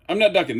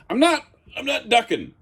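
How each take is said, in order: First: Said in the usual way. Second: NOT pitched high and pushed, "I'm not, I'm not ducking"; stress on NOT. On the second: Real, not acted. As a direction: insist on "not" with a higher, pressed voice. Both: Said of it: "there's my hand touching the ceiling".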